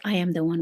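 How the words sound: It is said firmly, with full certainty.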